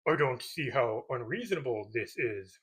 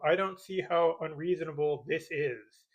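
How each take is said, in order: First: It is said in a Yoda voice. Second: It is said in his normal voice.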